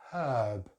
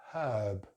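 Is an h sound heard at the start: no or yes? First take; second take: yes; yes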